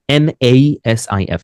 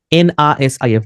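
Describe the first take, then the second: First: "এ" said as ay, letters slowly spaced; correct letter names. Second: "আ" said as ah in place of the letter name; wrong spelling-out. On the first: Teacher shows name spelling for listening, "এ" as ay. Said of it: "এই বলবে তখন". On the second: Teacher shows how not to spell a name, "আ" as ah. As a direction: spell it with "আ" as an open ah. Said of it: "বলবে না". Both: Shown as a demonstration.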